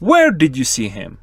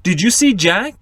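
First: "Where did you see him?" falling from Where; falling question tune. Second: "Did you see Jack?" rising on see; rising question tune. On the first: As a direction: demo the WH fall, low at the end. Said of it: "For a W H question". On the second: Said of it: "For yes-no question". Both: Shown as a demonstration.

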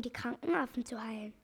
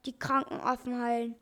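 First: Said in the usual way. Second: Lightly mocking echo; laughing scorn. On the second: A narrator's reading. Old man ridicules the doctor's mission, mildly scornful. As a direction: repeat it with a touch of derision. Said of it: "lachte der zottige Alte".

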